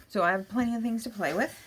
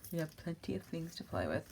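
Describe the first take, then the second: First: Said in the usual way. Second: Much softer, murmured echo; hushed repeat to herself. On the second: Shown as a demonstration. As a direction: say it again under your breath.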